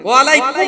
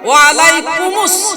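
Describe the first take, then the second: First: The word ends in kum with no added sound. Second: The word ends in kumus, linking to the next. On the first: The speaker calls it wrong. "ওয়া আলাইকুম হবে না" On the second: The speaker calls it right.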